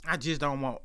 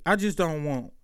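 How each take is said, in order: First: Softer resigned echo; trailing off quietly. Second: Said in the usual way. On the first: Real, not acted. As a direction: repeat it much softer, fading.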